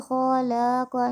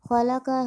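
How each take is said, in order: First: خلا کا with all three vowels dragged out long; wrongly stretched. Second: خلا کا read quickly with every vowel short; unstretched, flowing خلا کا. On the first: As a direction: mistaken reading, lengthen every syllable of خلا کا. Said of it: "قرآن پاک کو کھینچ کھینچ کر پڑھ رہے ہوتے ہیں". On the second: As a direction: read خلا کا straight through without stretching. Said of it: "ہمیں اسے جلدی پڑھنا ہے رواں میں". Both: Shown as a demonstration.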